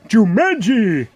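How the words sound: It is said in a Homer Simpson voice.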